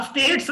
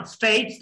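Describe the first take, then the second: First: स्टेट्स with a flat short E, stets; wrong local pronunciation. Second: स्टेट्स as STAYTS, gliding EI vowel; correct English pronunciation. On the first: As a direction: say स्टेट्स quickly without a vowel glide. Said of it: "स्टेट्स नहीं कहना". (स्टेट्स सीधी ए के साथ, देसी) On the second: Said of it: "क्योंकि ए नहीं". (स्टेट्स को स्टेय्ट्स, अंग्रेज़ी अंदाज़ में) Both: Shown as a demonstration.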